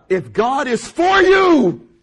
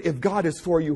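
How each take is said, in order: First: Loud, high, drawn-out cry on "for you"; ringing full-force proclamation; preacher's shout. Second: Said in the usual way. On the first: Real, not acted. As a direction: belt the verse out slowly to the congregation. Preacher shouts the verse again.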